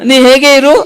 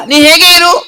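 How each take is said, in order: First: Said in the usual way. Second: High puppet voice; puppet reciting. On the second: Acted. Puppet recites a missing-person advertisement, high puppet voice.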